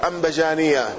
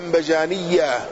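First: The ya sound near the end is single. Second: The ya sound near the end is doubled. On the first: "وبتخفيفها" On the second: "بتشديد الياء"

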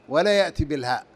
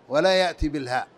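The two takes are said the same way.

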